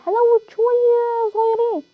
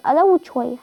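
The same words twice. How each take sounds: First: High, slow, drawn-out begging whine; whiny pleading. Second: Said in the usual way. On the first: Real, not acted. Gamer begs teammates to let him loot, whining.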